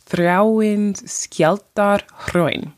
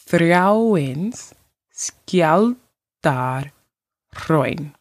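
First: Said in the usual way. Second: Þráinsskjaldárhraun very slowly, part by part; slower demonstration. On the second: Shown as a demonstration. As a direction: stretch Þráinsskjaldárhraun out with pauses between its parts. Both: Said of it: "I will say it slower".

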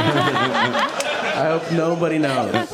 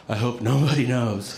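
First: Drawn out through laughter; slow, laughing repeat. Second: Said in the usual way. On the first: Retold or imitated. Repeating his only thought to the audience, slow through laughter. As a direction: savor the punchline, slow and laughing. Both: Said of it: "That's the whole thing".

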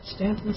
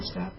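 First: "Stanton" with an N before the second T; quiet, unsure "Stanton", STAN-tun; said with middle N. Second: "Staten" with no N before the second T; unsure alternative "Staten", middle N dropped; said without middle N. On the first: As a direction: say "Stanton" softly, sounding both Ns. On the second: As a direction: say "Staten" as STAT-un. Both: Shown as a demonstration. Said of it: "however you say it".

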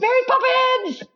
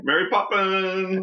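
First: Excited squeal. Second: High, slow, drawn-out title call; excited announcement. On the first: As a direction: squeal the title with glee. Echoing the title, higher. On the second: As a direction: announce it with delight. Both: Acted.

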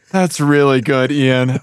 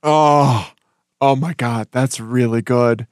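First: Said in the usual way. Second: Breathless and spent from laughing; catching breath after a laughing fit; after laughing hard. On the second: Real, not acted. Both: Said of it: "my face hurts from laughing".

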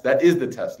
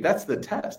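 First: "That is the test" with "is" spelled out and hit louder; stress on IS. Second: Said in the usual way. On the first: Shown as a demonstration. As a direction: lean hard on "is" in "That is the test".

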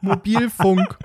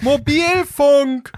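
First: Mobilfunk spelt out slowly for a machine; overenunciated. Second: Mobilfunk shouted high and very slow; frustrated yell. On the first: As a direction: say Mobilfunk syllable by syllable. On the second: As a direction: bellow Mobilfunk at the dumb bot. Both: Retold or imitated. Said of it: "eine Computerstimme und die sagt".

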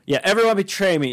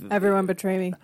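First: Lightly voiced accented movie star; Tommy Wiseau impression. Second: Tommy Wiseau impression. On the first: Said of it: "it was Tommy Wiseau's story". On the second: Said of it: "he betrayed".

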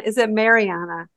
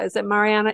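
First: "Mariana" starting like "Mary"; Mariana as mare-ee-AH-na. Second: "Mariana" with an open "mah" first; Mariana as mah-ree-AH-na. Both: Shown as a demonstration.

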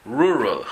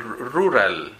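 First: "rural" slow, with untrilled English Rs. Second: "rural" as the Spanish word, R rolled then tapped. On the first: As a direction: say "rural" the English way, tongue not tapping. (erres inglesas en "rural", sin vibrar) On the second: (erres españolas en "rural", vibrantes) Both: Shown as a demonstration. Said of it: "No, rural".

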